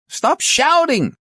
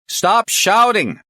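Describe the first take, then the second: First: Very high, slow, loud shout. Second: Slow, high, loud shout. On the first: Chief returning the complaint on a bad line, shouting. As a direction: shout it back even higher. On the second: Inspector to a shouting caller on a bad line, shouting. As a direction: shout each word slowly to get through. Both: Acted.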